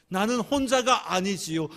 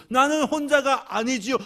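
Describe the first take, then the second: First: Earnest, a little louder, mild tearful edge on 혼자가; tearful confession. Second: Much higher and louder, crying out on 나는; tearful confession, building. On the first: Widow answering the Lord, mildly tearful. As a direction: confess it with rising feeling. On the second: Widow answering the Lord, crying it out louder. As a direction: let the feeling break out on the repeat. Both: Retold or imitated. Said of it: "하나님 앞에 울면서 고백합니다".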